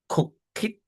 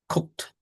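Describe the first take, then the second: First: The ending is an extra syllable. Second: The ending adds no extra syllable. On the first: The speaker calls it wrong. "We do not say cook it" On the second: The speaker calls it right. "but this is cooked"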